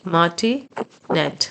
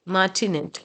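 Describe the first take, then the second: First: Martinet drawn out syllable by syllable, very slowly; very slow model word. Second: Said in the usual way. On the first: Shown as a demonstration. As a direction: spell out martinet slowly for the class. (martinet को बहुत धीरे-धीरे, एक-एक हिस्सा करके) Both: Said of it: "repeated model word".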